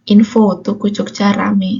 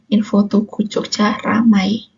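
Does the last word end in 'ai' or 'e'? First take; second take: e; ai. First: The last word ends with an 'e' sound. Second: The last word ends with an 'ai' sound. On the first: The speaker calls it wrong. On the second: The speaker calls it right.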